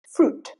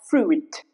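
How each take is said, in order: First: The I is silent, with a long U. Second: The I is sounded after the U. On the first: The speaker calls it right. "the letter I goes silent" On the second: The speaker calls it wrong. "not fruit"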